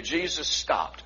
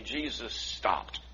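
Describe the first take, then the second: First: Slow, deliberate, a bit softer; slow, weighty. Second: Slow and much softer, lower; quiet and slow. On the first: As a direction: let each word land slowly. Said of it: "I want you to repeat that". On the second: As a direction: drop it to a hush. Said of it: "I want you to repeat that to me". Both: Shown as a demonstration.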